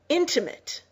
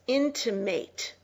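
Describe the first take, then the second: First: The last syllable has a short, weak vowel. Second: The last syllable has a long A vowel. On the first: It describes a close relationship. "Intimate is an adjective meaning close" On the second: It is a verb meaning to hint at something. "It is pronounced with a long A"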